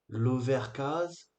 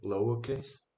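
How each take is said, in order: First: It is read with French-style pronunciation. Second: It is read with English-style pronunciation. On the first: The speaker knows no English. The speaker calls it wrong. "Qu'est-ce que dirait le bon français qui n'a aucune connaissance? Il dirait" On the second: The speaker understands English. The speaker calls it right. "quand on commence à comprendre l'anglais, on sait que ça se prononce"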